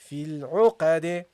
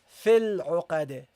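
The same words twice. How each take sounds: First: The final d is released with a bounce. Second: The final d stops flat with no bounce. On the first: The speaker calls it right. "you have to give it a bounce" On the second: The speaker calls it wrong. "Don't say here"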